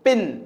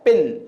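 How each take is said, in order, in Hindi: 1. स्वर छोटा है, जैसे 'sit' में। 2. स्वर छोटा है, जैसे 'sit' में।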